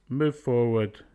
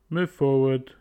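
No difference in how they are said.

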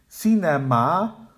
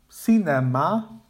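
First: All three vowels are full with equal stress. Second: All three vowels are full with equal stress.

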